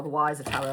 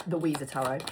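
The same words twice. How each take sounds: First: Wiser said with a long "eye", like "wise-er". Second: Weezer said with a long "ee", like the band; Weezer as wee-zer. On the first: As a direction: say Wiser rhyming with "miser". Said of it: "Or is it the Weezer?". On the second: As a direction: say Weezer rhyming with "freezer". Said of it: "W E I S E R. Weezer". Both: Shown as a demonstration.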